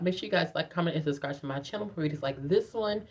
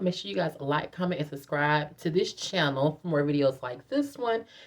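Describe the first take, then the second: First: It is said fast. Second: It is said slowly.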